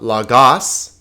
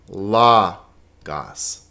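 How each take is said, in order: First: The stress is on the second syllable. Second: The stress is on the first syllable. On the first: The speaker calls it wrong. "Now notice it's not lagos" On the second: The speaker calls it right. "the accent is over the first syllable"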